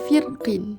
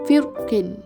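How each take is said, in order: First: The r is pronounced thin and light. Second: The r is pronounced thick and heavy. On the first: "ra dibaca dengan nipis" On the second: "ra dibaca tebal"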